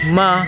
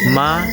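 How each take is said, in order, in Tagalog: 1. Nananatiling mataas at pantay ang pitch. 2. Tumataas ang pitch mula gitna hanggang mataas. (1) "I'm using the first tone ma" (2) "I'm using the second tone ma"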